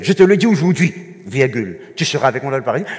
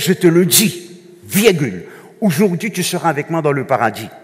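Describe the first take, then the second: First: The pause comes after 'aujourd'hui'. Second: The pause comes before 'aujourd'hui'.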